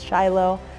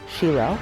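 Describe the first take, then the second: First: The name is said with an English pronunciation. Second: The name is said with a Hebrew pronunciation. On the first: "versus Shiloh" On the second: "I'm using the Hebrew pronunciation"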